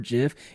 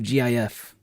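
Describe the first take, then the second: First: It is said as a single word. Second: It is spelled out letter by letter. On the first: "Instead of saying GIF" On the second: "you just spell it out"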